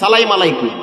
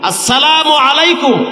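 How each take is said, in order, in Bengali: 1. শুরুর অংশগুলো বাদ পড়ে যায় এবং একসাথে জড়িয়ে যায়। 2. প্রতিটি অংশ পূর্ণভাবে ও যত্নসহকারে উচ্চারণ করা হয়। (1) "সালামটাও শিখায় না" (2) "এখন আমি শুদ্ধ করে আপনাদেরকে একটু সালাম দিচ্ছি"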